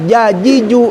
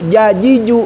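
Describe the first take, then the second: No difference in how they are said.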